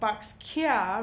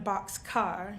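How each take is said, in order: First: The last syllable ends in an open vowel. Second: The last syllable ends in a full 'car'. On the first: "So box kia rather than box car" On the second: "rather than box car"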